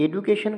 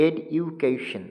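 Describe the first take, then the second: First: Said in the usual way. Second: education slowly in four separate beats, ed-u-ca-tion; split into syllables. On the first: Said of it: "education কথাটি". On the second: Shown as a demonstration. Teacher showing students the four stops in education, syllable by syllable. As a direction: break education with a short stop after each syllable. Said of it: "চারটে জায়গাতে আসলে থামতে হচ্ছে".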